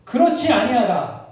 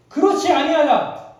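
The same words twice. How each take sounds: First: "그렇지" leaned on, slow and louder; firm denial. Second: "그렇지" higher and louder, slow; stronger repeat. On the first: God answering Cain's fear, slow firm "그렇지". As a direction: state "그렇지 아니하다" slowly and firmly. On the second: God insisting to Cain, slow emphatic "그렇지". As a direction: repeat "그렇지 아니하다" with more force. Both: Acted.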